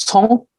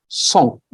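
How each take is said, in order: First: "Cong" opening on a ts sound, not plain s; correct pronunciation. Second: "Song" opening on a plain hissed s; common mispronunciation. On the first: Teacher modelling a sound students struggle with, correct ts in "Cong". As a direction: say "Cong" with the tongue releasing a ts. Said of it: "So it should be Cong". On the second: Teacher showing what students say by mistake, plain s in "Song". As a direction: say "Song" with no t before the s. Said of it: "Sometimes it is pronounced as Song". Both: Shown as a demonstration.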